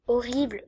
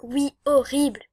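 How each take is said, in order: First: Said in the usual way. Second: « horrible » étiré lentement avec insistance; horrible insisté. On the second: Shown as a demonstration. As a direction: appuyer longuement sur « horrible ». (« horrible » lent et insistant) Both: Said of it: "Quand je dis horrible".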